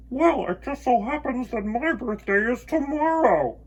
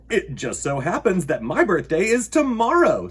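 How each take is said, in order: First: Echo. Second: Loud, cheerful bear voice; pleased little bear; Bear's answer. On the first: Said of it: "his own voice echoed off". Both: Acted.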